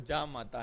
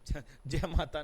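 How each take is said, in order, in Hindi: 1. पहला शब्द 'ja' की तरह बोला जाता है। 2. पहला शब्द 'jai' की तरह बोला जाता है। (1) "वो जा माता है" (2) "जय माता नहीं है"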